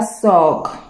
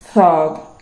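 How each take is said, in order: First: The first sound is a French-like 's'. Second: The first sound is a 'th' sound. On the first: The speaker calls it wrong. "on ne dit pas thug" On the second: The speaker calls it right. "C'est thug"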